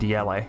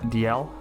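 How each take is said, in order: First: The final E is sounded with emphasis. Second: The final E is not sounded. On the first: "I like to put some emphasis on that last E" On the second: "I don't know how you pronounce this"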